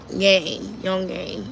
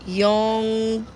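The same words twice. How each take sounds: First: Yongae repeated, slower and drawn out; repeated Korean word. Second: Yongae said carefully as a Korean word. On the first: Repeating the Korean label for viewers, drawn-out Korean pronunciation. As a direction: say Yongae again, stretching it. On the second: Reading the Korean label aloud to viewers, careful Korean pronunciation. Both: Shown as a demonstration. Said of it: "That's what it says in Korean".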